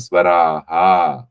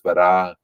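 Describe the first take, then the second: First: The final visarga is echoed as an extra 'ha'. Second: The final visarga is cut off with a stop. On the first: "we are actually pronouncing in the South Indian way" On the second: "in the North Indian way, it is swara. It is it is stop"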